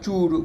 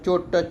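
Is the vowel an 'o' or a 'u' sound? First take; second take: u; o. First: The vowel is a 'u' sound. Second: The vowel is an 'o' sound.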